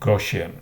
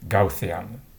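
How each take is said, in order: First: It is pronounced the English way. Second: It is pronounced the German way. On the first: The name is adapted to English. The speaker calls it wrong. "In English-speaking countries, it's often pronounced Gaussian" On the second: The name keeps its original form. The speaker calls it right. "Mister Gauss was German, so I read it Gaussian"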